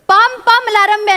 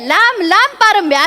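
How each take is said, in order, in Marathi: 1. शब्दांचे सुरुवातीचे आवाज उलटे झाले आहेत. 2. शब्दांचे सुरुवातीचे आवाज नेहमीसारखे आहेत. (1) "नाही रे" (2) "असं आहे हं?"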